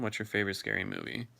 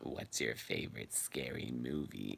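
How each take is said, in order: First: It is said in an ordinary natural voice. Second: It is said in a put-on menacing villain voice.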